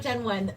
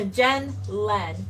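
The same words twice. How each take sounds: First: "Jen Wen", the mistaken reading with a W; wrong name. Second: "Jen Len" said clearly with an L, stressing Jen; "Jen Len", the corrected name, slow and careful; right name. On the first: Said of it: "No, not Jen Wen". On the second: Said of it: "J E N". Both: Shown as a demonstration.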